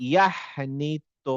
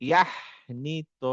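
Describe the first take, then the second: Both takes have the same delivery.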